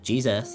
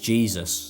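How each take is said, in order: First: It is said in a non-British, imitated way. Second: It is said in a British accent. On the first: "Maybe I should be going, Jesus. Thank you, Jesus. Like that" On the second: "I thought it was Jesus, but I have a British accent"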